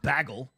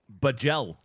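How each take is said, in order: First: The second syllable does not sound like gel. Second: The second syllable sounds like the word gel. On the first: The speaker calls it wrong. "But not bagel" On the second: The speaker calls it right. "I would think about gel, as in gel for my hair, and I'd call it bagel"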